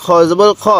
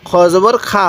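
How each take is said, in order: First: খ with a rounded, heavy 'o', not 'khaa'; correct heavy kho. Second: খা with an open 'aa' instead of rounded 'kho'; mistaken thin vowel. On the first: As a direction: end on a full-mouthed 'kho' in খ. (খ, ভারী অ-স্বরে সঠিক উচ্চারণ) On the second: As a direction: end on a thin, open 'khaa' in খা. (খা, পাতলা আ-স্বরে ভুল উচ্চারণ) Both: Shown as a demonstration. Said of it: "খ জবর খা হবে না".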